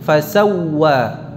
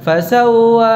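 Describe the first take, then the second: First: The w sound is doubled and held. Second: The w sound is single and short. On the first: The speaker calls it right. "ini ada wawu tasydid" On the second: The speaker calls it wrong. "bukan fasawwa"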